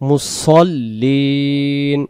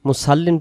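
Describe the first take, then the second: First: The s-sound is emphatic and heavy. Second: The s-sound is plain and light. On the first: The speaker calls it right. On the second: The speaker calls it wrong.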